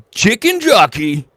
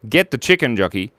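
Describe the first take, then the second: First: Loud, high, drawn-out cry; catchphrase shout. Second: Said in the usual way. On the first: Pretend. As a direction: belt it out like a hype line.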